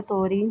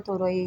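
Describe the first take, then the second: First: तोरी said as to-ree; तोरी ending in a single ree; two-syllable variant. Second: तोरई said as to-ra-ee; तोरई ending in separate ra and ee; three-syllable variant. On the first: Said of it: "कभी मेरे ज़ुबान से निकलता है तोरी". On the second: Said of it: "तो कभी निकलता है तोरई". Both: Shown as a demonstration.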